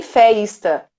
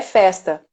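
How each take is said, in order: First: "feista" with an added i glide before the S; "feista" with a drawn-out ei vowel; wrong diphthong in feista. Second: Said in the usual way. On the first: Shown as a demonstration. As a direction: slowly stretch "feista" as fay-ees-ta. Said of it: "E nem feista". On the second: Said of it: "É festa".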